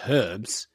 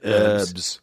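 First: The h at the start is pronounced. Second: The h at the start is silent. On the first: The speaker calls it right. "We pronounce it herbs" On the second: The speaker calls it wrong. "you guys pronounce it herbs. Because there's a fucking H at the start"

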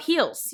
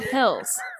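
First: The vowel is a long 'ee' sound. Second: The vowel is a short 'ih' sound. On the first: The speaker calls it wrong. "It's like you go up heels" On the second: The speaker calls it right. "You don't go up hills"

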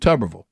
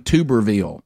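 First: The stress is not on the last syllable. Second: The stress is on the last syllable, ville. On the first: The speaker calls it right. "as opposed to Tuberville" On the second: The speaker calls it wrong. "he was really emphasizing the veal too, like a town"

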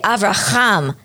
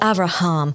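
First: The middle h is a rough guttural throat sound. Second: The middle h is a soft breathy sound. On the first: The speaker calls it wrong. "why does she say Avraham? There's not a chet sound there" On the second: The speaker calls it right. "It's a hey. It's Avraham"

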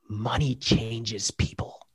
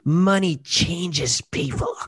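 First: It is said in a plain, neutral tone. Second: It is said with dripping sarcasm and sneering.

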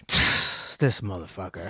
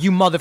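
First: It is muttered quietly under the breath. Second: It is said loudly and directly.

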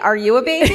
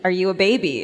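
First: It is said in an annoying baby-talk voice. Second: It is said in a plain, ordinary voice.

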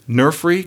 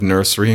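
First: The middle consonant is an f sound. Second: The middle consonant is an s sound. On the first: This is one person's personal habit. "But for some reason on those two words" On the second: This is how most people say it. "That is not the way other people she grew up around say nursery and grocery"

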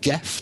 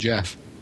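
First: The name starts with a hard G sound. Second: The name starts with a soft J sound. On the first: This is how British people tend to say it. The speaker calls it wrong. "we Brits tend to call him Geff the Mongoose because of the unusual G-E-F spelling" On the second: This is how the bearer pronounced his own name. The speaker calls it right. "Jeff himself gave us the pronunciation of his name"

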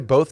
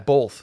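First: It has a more standard general pronunciation. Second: It has a regional Western New York pronunciation. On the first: This is the way others pushed the speaker toward. "I say both now" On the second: This is the speaker's original regional way. "I've been bullied out of my both"

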